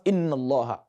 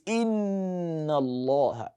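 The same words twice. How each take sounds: First: The nasal n sound is short and quick. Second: The nasal n sound is held long. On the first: The speaker calls it wrong. "it is not inna allaha" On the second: The speaker calls it right. "You take your time a bit"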